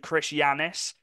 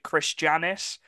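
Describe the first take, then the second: First: The surname starts with a Y sound. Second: The surname starts with a J sound. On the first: The speaker calls it right. "you pronounce the J as a Y" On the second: The speaker calls it wrong. "I don't think you pronounce it Chris Janis"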